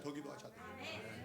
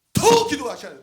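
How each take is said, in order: First: 더 기도하셔야 돼요 whispered, unvoiced; hushed plea to pray more; whispered urging. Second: 더 punched high and loud; urging the church loudly to pray more. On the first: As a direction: breathe it as a whisper. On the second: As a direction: hit 더 hard, then fall. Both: Shown as a demonstration.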